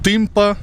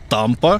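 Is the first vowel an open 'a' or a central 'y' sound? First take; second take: central y; open a. First: The first vowel is a central 'y' sound. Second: The first vowel is an open 'a' sound. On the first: This is how the name is actually read. The speaker calls it right. "але читається Тимпа" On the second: This is how the name looks in writing. The speaker calls it wrong. "написано, що вона називається Тампа"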